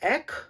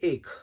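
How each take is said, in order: First: The vowel is open, with the mouth wide. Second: The vowel is closed, with the mouth narrower. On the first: This is the Bengali form. "ഏക് ആണ് ബംഗാളിയിൽ, ... ഒരു open mouth ആയിട്ട്" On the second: This is the Hindi form. "ഹിന്ദിയിൽ ഏക്"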